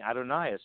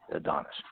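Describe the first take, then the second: First: The name is said as Adonais. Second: The name is said as Adonis. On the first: This is how someone at the convention pronounced it. The speaker calls it wrong. "we all walked around saying Adonais" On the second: This is the real pronunciation. The speaker calls it right. "found that it was really Adonis"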